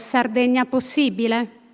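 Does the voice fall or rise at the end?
rise. The phrase ends with a rising question tune. It doubts whether it is really possible. "mettano invece il punto interrogativo"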